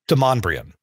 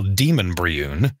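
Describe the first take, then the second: First: The name is said the local way, 'Demonbrion'. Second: The name is read literally, like 'Demon Briun'. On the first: This is how locals actually say it. The speaker calls it right. "It's pronounced Demonbrion" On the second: This is how an outsider would guess it. The speaker calls it wrong. "It's spelled as if you would pronounce it Demon Briun"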